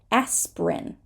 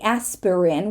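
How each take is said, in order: First: One syllable of the word is dropped. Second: Every syllable of the word is pronounced. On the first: The speaker calls it right. "we're going to say" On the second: The speaker calls it wrong. "We're not going to say"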